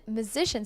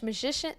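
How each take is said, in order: First: "musician" said clearly as myoo-ZISH-un; "musician" cleanly pronounced, myoo-ZISH-un; corrected pronunciation. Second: "musician" slurred, its z sound muddled; "musician" fumbled as something like muh-ISH-uh; stumbled pronunciation. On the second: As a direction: trip over the middle of "musician". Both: Real, not acted.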